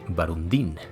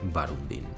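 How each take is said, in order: First: The stress is on the last syllable. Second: The stress is on the first syllable. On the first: "o el caso menos probable, Barundín, el muy pillín" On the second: "con la sílaba tónica al inicio"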